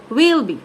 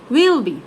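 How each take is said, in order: First: The words are squeezed together and the vowels reduced. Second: The words are squeezed together and the vowels reduced.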